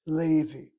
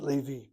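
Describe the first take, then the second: First: Levi with a loud, drawn-out LE; stress on first syllable. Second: Levi with the weight moved onto VI; stress on last syllable. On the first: Teacher demonstrating the name, Levi stressed loudly on LE. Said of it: "Notice how I said it". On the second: Teacher offering the alternative, Levi stressed on VI. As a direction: lean on the final syllable of Levi. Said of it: "Why not Levi?". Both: Shown as a demonstration.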